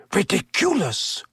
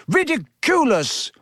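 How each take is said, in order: First: Offhand spell, raised in pitch but easy; almost lazy. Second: High, determined shout; Neville. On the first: Teacher facing the silvery orb, almost lazily. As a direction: toss the spell off without effort. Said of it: "almost lazily". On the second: Pupil charging forward determined, high shout. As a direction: shout the spell with pitch leaping, volume contained. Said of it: "he shouted". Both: A narrator's reading.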